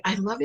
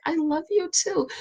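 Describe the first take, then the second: First: Said in the usual way. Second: Higher, sweet loving reply. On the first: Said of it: "he'll just say". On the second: Retold or imitated. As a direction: answer him sweetly. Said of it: "And I'm like".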